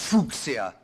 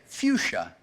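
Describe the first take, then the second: First: It is given a non-English pronunciation. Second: It is given the English pronunciation.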